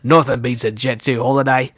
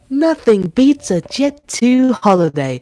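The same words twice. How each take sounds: First: It is spoken in an Australian accent. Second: It is spoken in a British accent. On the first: "I can do Australian" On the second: "I love doing a British accent"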